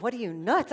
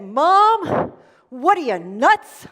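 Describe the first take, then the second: First: Said in the usual way. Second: Put-on loud, higher kid's outburst, stretched slow; a bratty child shouting back at his mother; kid yelling. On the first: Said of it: "I said". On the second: Son snapping back at mom, loud childish outburst.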